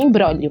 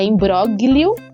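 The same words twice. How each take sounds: First: The G is silent in the word. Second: The G is sounded as written. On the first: "mas a gente pronuncia imbróglio" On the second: "Então é imbróglio"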